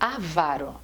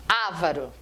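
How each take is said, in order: First: The stress is on the second syllable. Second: The stress is on the first syllable. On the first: The speaker calls it right. "ela se pronuncia avaro" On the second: The speaker calls it wrong. "é como se ela fosse uma proparoxítona"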